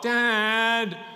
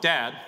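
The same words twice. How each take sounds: First: It is called out in a whining voice. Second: It is called out in a plain voice.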